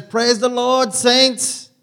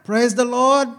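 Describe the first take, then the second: First: Put-on high, loud, exuberant church-lady accent greeting the saints; imitating Angela's accent. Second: Put-on high, loud church-lady accent, stretched out; Angela's accent again. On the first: Angela greeting the worship team on arrival, in a booming accented imitation. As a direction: belt it out in her accent as she enters. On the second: Pastor retrying Angela's greeting for the congregation, loud accented imitation. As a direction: try the accent once more, full voice. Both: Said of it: "I wish I could do that accent".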